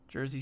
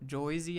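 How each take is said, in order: First: The first vowel sounds like 'er'. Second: The first vowel sounds like 'oy'.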